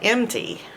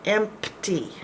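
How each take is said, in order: First: The P sound in the middle is dropped. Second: The P sound in the middle is heard. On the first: The speaker calls it wrong. "which some people do" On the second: The speaker calls it right. "you got to pronounce all those letters"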